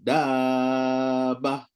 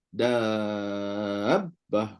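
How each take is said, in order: First: The doubled consonant is read without extra stress. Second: The doubled consonant is read with extra stress. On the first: The speaker calls it wrong. "tak buat nabru, terus hilang dia punya sabdu. Tak betul" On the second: The speaker calls it right. "Mesti kena nabru"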